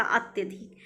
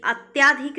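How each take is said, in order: First: अत्यधिक with a short tya; correct form अत्यधिक. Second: अत्याधिक louder on a long tyaa; wrong form अत्याधिक. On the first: Teacher corrects students, short tya in अत्यधिक. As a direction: keep the middle vowel short in अत्यधिक. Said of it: "अत्याधिक नहीं होता". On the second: Teacher rejects a misspelling, long tyaa in अत्याधिक. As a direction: lengthen the aa in अत्याधिक. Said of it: "नहीं होता". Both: Shown as a demonstration.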